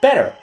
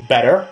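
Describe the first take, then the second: First: "better" high, dropping at the end; falling demo word. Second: "Better" low, lifting at the end; rising demo word. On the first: Showing two words sound the same, "better" falling. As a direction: answer with a higher, falling "better". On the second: Showing two words sound the same, "Better" rising. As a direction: say "Better" with a questioning rise. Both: Shown as a demonstration. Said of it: "better and better would be pronounced exactly the same".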